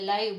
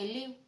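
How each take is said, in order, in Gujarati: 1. આ સ્વર 'eye' જેવો સંભળાય છે. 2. આ સ્વર 'ee' જેવો સંભળાય છે. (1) "આને બોલવું હોય ને તો આપણે લાઈવ બોલીએ" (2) "પણ લખ્યું છે કેમ? તો કે લીવ"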